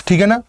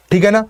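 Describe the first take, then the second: No difference in how they are said.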